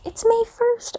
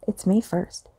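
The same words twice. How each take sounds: First: High, thrilled squeal of the date; excited. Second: Said in the usual way. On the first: Real, not acted. Vlogger greeting her viewers, squealing with excitement. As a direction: gush it out, delighted it's finally May.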